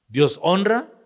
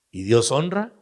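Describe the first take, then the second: First: Ringing high question. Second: Said in the usual way. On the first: Shown as a demonstration. Preacher repeating the question to the congregation, high and loud.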